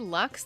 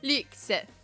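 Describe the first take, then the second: First: The word has a plain English vowel. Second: The word has a French-style vowel. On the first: It sounds like a type of salmon. The speaker calls it wrong. "that sounds like I'm eating salmon" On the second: It sounds more sophisticated. The speaker calls it right. "I just say it like it's French"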